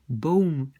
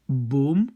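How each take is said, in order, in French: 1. La voyelle est suivie d'un son qui glisse. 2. La voyelle est un seul O pur. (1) "aux Pays-Bas, il y a comme quelque chose qui suit ce son" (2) "En Flandre... il n'y a qu'un son, O"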